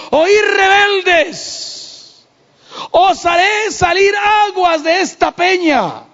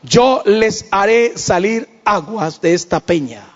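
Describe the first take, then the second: First: High, slow furious shout "Oí rebeldes"; angry shout. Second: Slow plain reading with "Yo" stressed. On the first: Acted. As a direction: roar it at the rebels, drawn out. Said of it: "estaba tan enojado que le dijo". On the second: Shown as a demonstration. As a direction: quote it calmly, leaning on "Yo". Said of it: "¿Y qué dijo él?".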